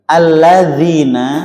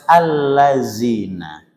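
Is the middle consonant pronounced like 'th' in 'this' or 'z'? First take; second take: th; z. First: The middle consonant sounds like 'th' in 'this'. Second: The middle consonant sounds like a 'z'.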